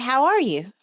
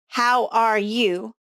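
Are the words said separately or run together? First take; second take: run together; separately. First: The words are linked together and reduced. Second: Each word is said clearly and separately.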